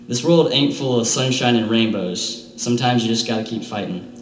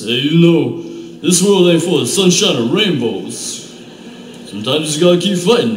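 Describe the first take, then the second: First: It is said in his normal voice. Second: It is said as a Rocky Balboa impression.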